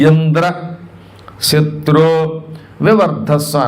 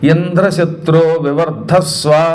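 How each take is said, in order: First: A short gap separates Indra from shatru. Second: Indra and shatru run together as one word. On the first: "కేవలం gap ఇచ్చాడంతే" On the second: "ఇంద్రశత్రో వివర్ధస్వ అని మంత్రం చదవబోయాడు"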